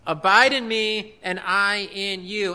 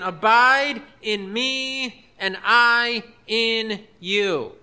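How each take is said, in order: First: Said in the usual way. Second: Very slow, drawn-out scripture reading; slow solemn quotation. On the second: Acted. Preacher quoting the Lord's words to congregation, very slow and deliberate. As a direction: stretch out each phrase of the verse. Reading the key verse emphatically.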